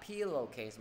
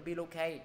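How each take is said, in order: First: "pillowcase" falling, ending in a clear s; correct final s. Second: "pillowcase" without its final s, like pillow-kay; wrong, dropped ending. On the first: Teacher modelling for students, falling with final s. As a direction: finish "pillowcase" low with a hissed s. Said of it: "Mọi người nhớ đi xuống thôi nha". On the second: Teacher warning students what not to say, ending dropped. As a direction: leave the s off the end of "pillowcase". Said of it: "đừng có pillowcase". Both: Shown as a demonstration.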